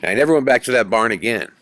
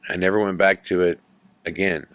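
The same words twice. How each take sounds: First: Louder, fast, stress on never; emphatic vow. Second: Said in the usual way. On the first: Real, not acted. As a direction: punch out never, done with that barn.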